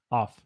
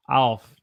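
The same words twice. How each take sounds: First: Said in the usual way. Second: "alf" as a drawn-out off; "alf", the vowel gliding, Southern style. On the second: Shown as a demonstration. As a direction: bend off into "alf". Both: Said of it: "But sometimes we say".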